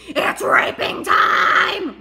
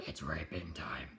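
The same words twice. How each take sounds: First: Slow, loud, drawn-out yell; slow high gleeful bellow; gleeful shout. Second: Whispered quote. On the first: Acted. Character yells the dare. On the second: Retold or imitated.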